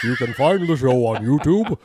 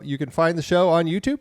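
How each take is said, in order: First: It is said in his put-on David voice. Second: It is said in his normal voice.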